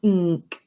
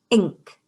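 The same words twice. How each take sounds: First: "Ink" broken into ih and nk; segmented "Ink", teacher's phonics style; sounded out. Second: Said in the usual way. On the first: Shown as a demonstration. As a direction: separate the first sound of "Ink", then give the nk. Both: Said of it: "So that is our I sound".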